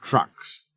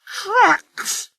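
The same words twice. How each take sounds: First: A driver quietly settling the matter; firm quiet repeat. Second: Trucks! flung out very high and indignant; a proud engine refusing trucks; scornful snort. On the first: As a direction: calmly insist on Trucks. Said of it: "his driver repeated". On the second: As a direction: scoff at Trucks! in outrage. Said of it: "snorted Sir Handel". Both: A narrator's reading.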